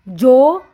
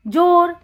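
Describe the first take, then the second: First: "जोर" split as a louder जो, then र; "जोर" with a gap before र; sounded out. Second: Said in the usual way. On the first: Shown as a demonstration. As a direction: sound out "जोर" in two parts. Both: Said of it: "इसका उच्चारण हम करेंगे जो".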